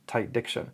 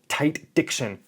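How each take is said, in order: First: The words are articulated loosely and laid back. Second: The words are articulated crisply and snappily. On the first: "more laid back" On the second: "More snappy"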